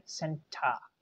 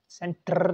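First: "सेंटा" as SEN-tuh, softer, no R; British "सेंटा", falling, R dropped; schwa ending. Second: "सेंटर" with a long trilled R; wrong rolled R. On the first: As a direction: end "सेंटा" on an open uh. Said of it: "आपको बोलना है सेंटा". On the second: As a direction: exaggerate the rolled ending of "सेंटर". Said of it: "सेंटर नहीं". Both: Shown as a demonstration.

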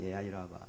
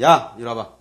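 First: Soft, gentle beckoning; soft tender invitation; loving call. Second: Loud barked "이리 와봐"; cold loud command; harsh summons. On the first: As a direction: coax them over tenderly. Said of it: "사랑하니까". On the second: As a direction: order them over without love. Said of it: "사랑하지 않으면". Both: Shown as a demonstration.

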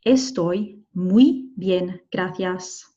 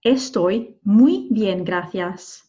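First: "Estoy muy bien, gracias" very slow, separated; slowest, careful "Estoy muy bien, gracias"; word-by-word model. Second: Slow "Estoy muy bien, gracias", "muy" stretched; unhurried "Estoy muy bien, gracias"; model sentence. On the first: Teacher repeats word by word. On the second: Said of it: "We could say". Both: Shown as a demonstration.

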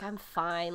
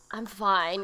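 First: Put-on softer, flat teenage brush-off; resigned teenager. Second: Put-on resigned teenager. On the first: Niece imitating her teenage self brushing off her uncle, resigned. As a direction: mumble it like you don't want to talk. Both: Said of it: "like a resigned teenager".

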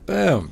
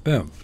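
First: Higher, much louder triumphant boom; loud playful boom; shouted boom. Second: Said in the usual way. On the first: Pretend. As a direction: punch it out like an explosion. Playful sound-effect boom.

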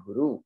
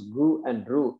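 First: Said in the usual way. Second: Gu and ru said as separate syllables; syllables split. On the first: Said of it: "in the word guru". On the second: Shown as a demonstration. Teacher splitting guru for students, syllable by syllable. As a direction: break guru into gu and ru. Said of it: "there are two syllables".

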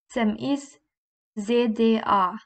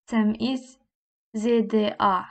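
The two takes are said the same way.

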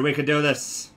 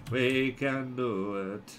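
First: Said in the usual way. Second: Slow, softer "We can do it"; low, slow, quiet self-rallying; drawn-out encouragement. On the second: Real, not acted. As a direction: stretch each word of "We can do it".

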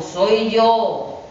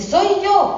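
First: The wolf's gruff voice, barely shifted; a hint of a gruff wolf at the door; lightly voiced wolf pretending to be mother; wolf with rough voice. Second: Much higher, thin put-on wolf voice; the wolf faking mother's fine voice; wolf squeaking high to trick the kids. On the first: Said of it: "contesta el lobo". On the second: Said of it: "ya tenía la voz muy fina".

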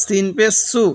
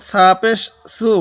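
First: সু said with a firm, crisp s as for সিন; hard sin sound. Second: সু said with a soft, light s as for সা; soft sa sound. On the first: Teacher contrasting the hard সিন in সু. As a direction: press the s in সু harder and sharper. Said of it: "সিনটা শক্ত". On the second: Teacher showing the soft সা in সু. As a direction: keep the s in সু gentle and unforced. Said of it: "সাটা নরম". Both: Shown as a demonstration.

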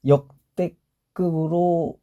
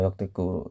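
First: 역대급으로 drawn out very slowly; stretched emphasis. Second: Said in the usual way. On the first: Real, not acted.

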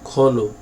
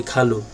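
First: খলু said "kho-lu", with a rounded first vowel; o-like vowel after the kh in খলু; correct Arabic pronunciation. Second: খালু said Bengali-style as "kha-lu", with an open a; mistaken pronunciation. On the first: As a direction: say খলু Arabic-style as "kholu", not "khalu". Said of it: "আরবির মতো করে উচ্চারণ করতে হবে". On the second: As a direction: demonstrate the wrong খালু, "khalu" instead of "kholu". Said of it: "এটা খুব ভুল হয়". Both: Shown as a demonstration.

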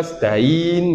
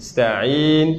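First: Sta'in without the ayn, very slow; flat sta'in; wrong, missing ayn. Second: Sta'in with a clear throat ayn, very slow; ayn sounded. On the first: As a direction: incorrect sta'in. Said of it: "C'est pas sta'in". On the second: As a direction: correct sta'in. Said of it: "mais c'est sta'in". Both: Shown as a demonstration.

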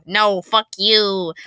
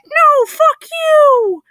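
First: Said in the usual way. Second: Very high, loud, drawn-out squeal; oddly high-pitched creature. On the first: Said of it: "replies the creature in an oddly high-pitched voice". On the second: Acted. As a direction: shriek it slowly in a tiny creature's falsetto. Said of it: "in an oddly high-pitched voice".

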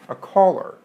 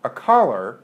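First: "caller" said as "kawler", rounded aw like thought; "A caller" with the thought vowel. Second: "caller" said as "kahler", open ah like lot; "a caller" with the lot vowel. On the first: Teacher contrasting the phone caller, "caller" with rounded aw. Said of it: "sounds different than somebody who calls". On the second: Teacher contrasting merged accents, "caller" said with ah. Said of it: "ask yourself whether or not this thing". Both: Shown as a demonstration.

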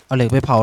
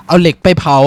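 First: Said in the usual way. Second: Louder, firmly fixing the slip of the tongue; loud self-correction. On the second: Real, not acted. Correcting his own misspoken crafting step, louder. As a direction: snap back to the right word. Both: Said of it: "ลิ้นเป็นเหี้ยอะไรเนี่ย".

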